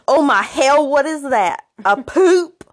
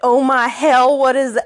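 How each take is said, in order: First: It is said in a Southern accent. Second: It is said in a plain accent.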